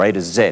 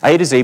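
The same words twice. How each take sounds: First: The last letter is said the Australian way. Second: The last letter is said the American way.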